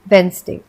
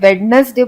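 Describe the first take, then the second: First: The d sound is left out in the middle. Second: The d sound is pronounced in the middle. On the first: The speaker calls it right. "Correct pronunciation है वेंसडे" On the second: The speaker calls it wrong. "सबसे common mistake"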